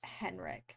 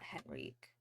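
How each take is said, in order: First: The name is said short, in two syllables. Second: The name is drawn out with a longer ending. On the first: The speaker calls it right. "It's Henrik" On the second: The speaker calls it wrong. "I keep elongating"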